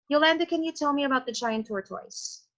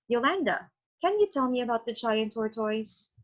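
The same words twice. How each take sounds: First: There is no pause after the name. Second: There is a pause after the name.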